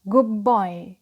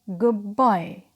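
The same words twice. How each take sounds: No difference in how they are said.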